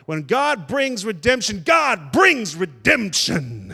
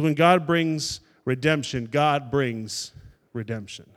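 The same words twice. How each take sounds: First: It is said with more force and punch. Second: It is said with less force and punch. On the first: The speaker calls it right. "Maybe I need to say it with a little more" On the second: The speaker calls it wrong. "I didn't quite punch it"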